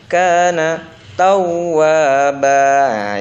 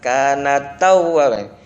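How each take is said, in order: First: Kana is kept apart from tawwaba. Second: Kana runs straight into tawwaba. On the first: The speaker calls it right. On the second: The speaker calls it wrong.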